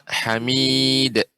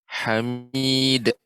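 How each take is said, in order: First: The final d is cut off with a catch. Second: The same.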